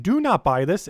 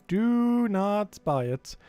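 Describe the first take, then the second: First: Said in the usual way. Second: "do not buy it" drawn out very slowly, every word hit; slow emphatic warning. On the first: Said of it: "once again". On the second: Shown as a demonstration. Streamer warning viewers off the overpriced shop item, very slow and emphatic. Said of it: "Every single thing at the end of a story".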